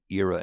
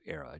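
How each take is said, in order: First: It is said so it does not sound like 'error'. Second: It is said so it sounds like 'error'. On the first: "I'm beginning to say era" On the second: "era sounds like you might be saying era, error"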